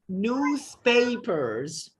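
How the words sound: It is said in an American accent, with R. "if you have to pronounce this word in the American accent, then ... you gotta say this word this way"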